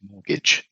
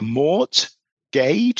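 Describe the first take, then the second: First: One spelled letter is left silent. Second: Every letter is sounded as it is spelled. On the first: The speaker calls it right. "it's actually pronounced mortgage. So the R is silent" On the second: The speaker calls it wrong. "sounds like Mort Gage if you look at it spelt"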